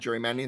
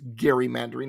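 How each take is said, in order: First: The word begins with a j sound. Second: The word begins with a hard g sound. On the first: The speaker calls it wrong. "It's not gerrymandering" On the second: The speaker calls it right. "It's named after Elbridge Gerry"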